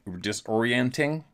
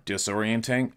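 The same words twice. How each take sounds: First: Disorienting stretched slowly, a touch higher, rising at the end; drawn-out emphasis. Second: Said in the usual way. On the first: Shown as a demonstration. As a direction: lean into disorienting, slow and rising.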